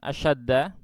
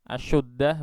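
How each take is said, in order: First: The vowel after 'sh' is a. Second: The vowel after 'sh' is u. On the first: The meaning becomes different. "ini bukan asyaddah" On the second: It has no meaning. "Kalau di dhammah, asyuddah begitu"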